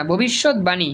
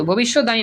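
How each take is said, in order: First: ভবিষ্যৎবাণী as bhobishot-bani; correct pronunciation. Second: ভবিষ্যৎবাণী said as bhobishod-dani; wrong pronunciation. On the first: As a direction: clear b starting bani in ভবিষ্যৎবাণী. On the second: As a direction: lose the b in ভবিষ্যৎবাণী, saying dani. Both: Shown as a demonstration. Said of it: "ভবিষ্যৎবাণী না".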